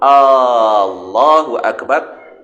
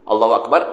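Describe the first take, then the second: First: The first vowel of Allah is drawn out long. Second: The first vowel of Allah is short. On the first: It asks whether God is great. The speaker calls it wrong. "Kalau kita tambah alif itu menjadi panjang, dia menjadi satu pertanyaan" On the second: It states that God is great. The speaker calls it right. "Allah Maha Besar"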